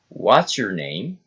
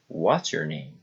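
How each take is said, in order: First: The voice rises at the end. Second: The voice falls at the end. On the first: It shows friendly interest and politeness. "Friendly interest, politeness, rising intonation" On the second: It is a plain information question. "Special questions, falling intonation"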